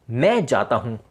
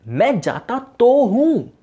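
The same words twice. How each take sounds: First: Said in the usual way. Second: "मैं जाता तो हूँ" said higher, louder and slow, leaning on "तो हूँ"; emphatic stress. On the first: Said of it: "जैसे कि कभी कभार हम किसी सेंटेंस पर जोर देते हैं". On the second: Shown as a demonstration. Teacher showing students a sentence said with emphasis, higher and louder. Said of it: "तो सेंटेंस पे जोर".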